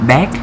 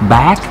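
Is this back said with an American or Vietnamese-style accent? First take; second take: Vietnamese-style; American. First: It is said with a Vietnamese-style accent. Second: It is said with an American accent. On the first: "thì Việt Nam mình sẽ đọc là back" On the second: "Ví dụ như là cái cặp là back"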